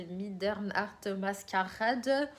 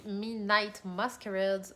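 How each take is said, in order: First: Slow, mock German pronunciation; German accent. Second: Said in the usual way. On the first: Vlogger unsure how the title is said, German accent. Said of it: "je prends un accent allemand". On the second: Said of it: "Je ne sais pas comment ça se dit".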